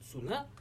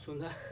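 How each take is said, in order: First: The word ends with a t sound. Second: The word ends with an h sound. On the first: The speaker calls it wrong. "on le prononce pas t, on le prononce h. On ne prononce pas suna" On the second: The speaker calls it right. "on prononce suna"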